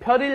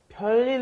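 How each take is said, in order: First: The middle L sound is short and single. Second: The middle L sound is long and doubled. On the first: The speaker calls it wrong. "It looks like you're saying 별일 없었어요, but no" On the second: The speaker calls it right. "it's going to be a long L"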